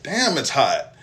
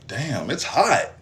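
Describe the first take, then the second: First: Said in the usual way. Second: Slow, stunned; dazed slow remark. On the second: Retold or imitated. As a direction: drag it out, not yet getting it. Noticing the wound burning.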